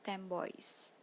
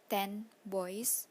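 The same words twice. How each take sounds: First: The first word ends with an m sound. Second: The first word ends with an n sound. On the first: "the n sounds changes to the bilabial m" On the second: "when we say ten boys"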